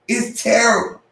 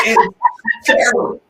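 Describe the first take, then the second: First: Said in the usual way. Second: Laughing. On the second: Real, not acted. Laughing at his own car.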